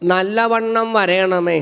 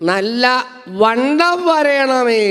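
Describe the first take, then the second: First: Nallavannam is said as one unbroken word. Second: Nalla and vannam are said as separate words. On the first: Asking to grow or thrive well. The speaker calls it right. "എന്നാണ് ഉദ്ദേശിച്ചത്" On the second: Asking to become nicely fat. The speaker calls it wrong. "സംഗതി പോയില്ലേ"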